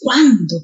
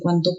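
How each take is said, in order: First: The word is said with strong emphasis. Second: The word is said weakly, without emphasis.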